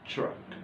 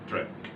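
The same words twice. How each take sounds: First: The start has a slight ch sound. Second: The start has a plain t sound. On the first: The speaker calls it right. "تتنطق فيها ch بسيطة أوي في الأول" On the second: The speaker calls it wrong. "مش track"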